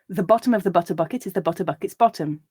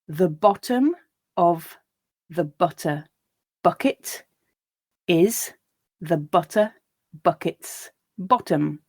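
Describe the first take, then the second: First: The sentence is read at a faster, natural pace. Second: The sentence is read at a slow pace. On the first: "once at a more natural pace" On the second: "once slowly"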